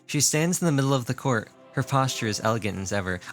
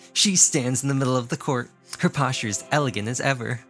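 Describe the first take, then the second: First: It is read in a plain, neutral voice. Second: It is read in a haughty, condescending voice.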